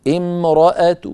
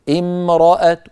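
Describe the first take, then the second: Both takes have the same delivery.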